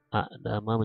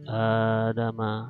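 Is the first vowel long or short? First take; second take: short; long. First: The first vowel is short. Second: The first vowel is drawn out long.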